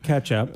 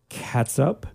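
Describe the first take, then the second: First: The word is pronounced like ketch-up. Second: The word is pronounced like cat-sup. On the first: The speaker calls it right. "Oh, sorry. Ketchup" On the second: The speaker calls it wrong. "You can't say it like that"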